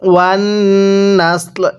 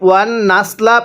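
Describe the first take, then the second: First: The word ends on a light l consonant. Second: The word ends with a short vowel after l. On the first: The reader stops at this word. "যদি ওয়াকফ করি তাহলে লামের উপর জবরকে বাদ দিয়ে দিতে হবে" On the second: The reading continues without a stop. "এখানে আমরা ওয়ান নাসলা পড়ব।"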